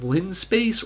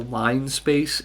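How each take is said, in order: First: The first syllable sounds like 'lin'. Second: The first syllable sounds like 'line'. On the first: "It's called linspace" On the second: "if you want to, you know, pronounce it like a normal person"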